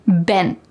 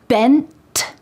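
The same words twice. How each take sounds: First: The final T is stopped without air. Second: The final T is released with air.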